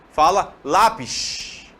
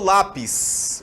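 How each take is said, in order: First: The final s sounds hissed, like sh. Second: The final s sounds plain, not hissed. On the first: "Ele fala dash. Deu essa coisa chiada" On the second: "Aqui eu falo lápis"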